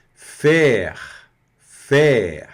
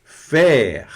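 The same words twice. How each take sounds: First: Faire with open è and throaty r; fer, throat r; French faire. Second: Faire loud with open è and r; French faire. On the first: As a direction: faire said loud. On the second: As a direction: fer. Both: Shown as a demonstration. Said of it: "e o R vai pronunciar".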